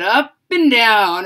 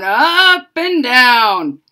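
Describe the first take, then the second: First: Said in the usual way. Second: "up and down" drawn out slowly and a bit louder, each word held; slow, stretched up and down. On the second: Shown as a demonstration. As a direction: stretch out "up and down" like the wire jiggling. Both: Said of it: "jiggled it up and down".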